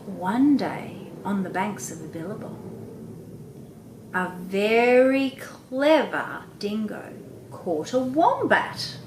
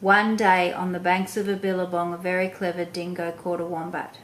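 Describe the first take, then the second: First: It is read slowly with a lively, varied voice. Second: It is read quickly in a flat monotone voice. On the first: The speaker calls it right. "I've really changed my voice up" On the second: The speaker calls it wrong. "I was too quick, I had a monotone voice"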